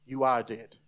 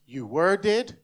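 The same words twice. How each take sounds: First: "are" leaned on, falling to a grave finish; stress on are. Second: "were" leaned on, "dead" left rising; stress on were. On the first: Preacher giving the second option, lower, stress on "are". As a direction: land the verdict on "are". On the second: Preacher offering the first of two options, stress on "were". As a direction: set up a choice by hitting "were". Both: Shown as a demonstration. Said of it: "there's two types of people in this room".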